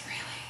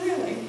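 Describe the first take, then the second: First: Whispered, breathy "Really?" with no voice. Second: High, amazed "Really?" with a falling end; a delighted, high-pitched gasp of "Really?"; surprised. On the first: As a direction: hush it to a bare whisper: "Really?". Mom quietly asks her crying son. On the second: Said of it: "get a little undone". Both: Retold or imitated.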